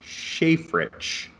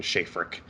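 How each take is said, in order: First: A hesitant "Shafrich", ending in sh, high and unsure; tentative guess at the name. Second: "Shafrick" with a hard k at the end, like frick; corrected name. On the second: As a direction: settle on "Shafrick", lower, ending in a crisp k. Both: Shown as a demonstration. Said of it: "Frick at the end".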